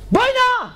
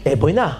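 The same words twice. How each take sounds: First: A high, yelled "בואי נא!"; police shout. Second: A low, level policeman's "בואי נא"; calm policeman. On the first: Policemen behind yelling at the rabbi, high shout. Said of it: "השוטרים מאחורה נותנים צעקה". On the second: Policeman stopping the rabbi, low and steady. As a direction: say "בואי נא" low and unhurried, like a cop stepping in. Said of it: "השוטר תופס אותי, אומר לי". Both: Retold or imitated.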